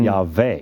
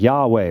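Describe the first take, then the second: First: The second syllable starts with a V sound. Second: The second syllable starts with a W sound. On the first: This is the old Germanic way of saying it. "it's a V" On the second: This is how Americans say it. "people in America is like Yahweh"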